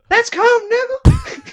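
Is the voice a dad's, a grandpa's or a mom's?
mom's. It is said in a mom's voice.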